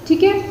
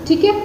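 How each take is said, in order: Both takes have the same delivery.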